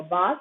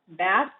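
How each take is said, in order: First: "bath" with an open back ah; British vowel. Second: "bath" with a front American a, as in cat; American vowel. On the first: Teacher contrasting accents for learners, British "bath" with ah. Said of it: "or bath in British". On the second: Teacher contrasting accents for learners, American "bath". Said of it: "bath in American". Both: Shown as a demonstration.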